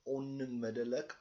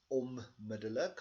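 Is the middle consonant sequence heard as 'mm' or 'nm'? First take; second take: nm; mm. First: The middle consonants sound like 'n' then 'm'. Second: The middle consonants sound like a double 'm'. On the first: "instead of the N M" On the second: "we say the M M"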